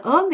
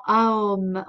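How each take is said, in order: First: "om" as one single vowel sound. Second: "aom" opening on a, gliding to o, then m; split into A-O-M. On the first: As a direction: say "om" in one syllable, closed on m. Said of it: "qu'on peut dire om". (« om » prononcé en une syllabe) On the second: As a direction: sound each letter of "aom". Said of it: "on va le dire en aom". (« aom » prononcé a-o-m, lettre par lettre) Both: Shown as a demonstration.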